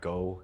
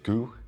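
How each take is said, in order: First: The vowel sounds like the vowel in 'go'. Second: The vowel sounds like the vowel in 'goo'. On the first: The speaker calls it wrong. "not Go" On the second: The speaker calls it right. "That's how you pronounce his name"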